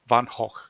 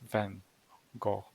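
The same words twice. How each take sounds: First: The name is said with a Dutch pronunciation. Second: The name is said with an English pronunciation. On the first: The speaker calls it right. "he was Dutch, and his name is pronounced correctly" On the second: The speaker calls it wrong. "not Van Gogh or something like that"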